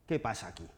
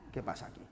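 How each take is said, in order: First: Said in the usual way. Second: ¿Qué pasa aquí? whispered, unvoiced. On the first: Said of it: "repeated as whisper". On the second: Shown as a demonstration. Teacher hushing the question again to the students, whispered. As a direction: breathe the question in a hush. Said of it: "repeated after plain take".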